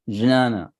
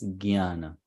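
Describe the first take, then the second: First: The word begins with a j sound. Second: The word begins with a g-y sound. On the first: This is how speakers in Maharashtra say it. "they'll start it as J only" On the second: This is how speakers in northern India say it. "they will pronounce it as Gyana, G Y"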